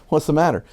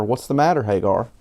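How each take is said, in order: First: Mock-baffled repeat; incredulous echo. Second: Said in the usual way. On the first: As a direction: repeat it with raised, disbelieving pitch. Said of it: "What kind of question is that?". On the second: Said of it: "the angel of God called to Hagar from heaven and said to her".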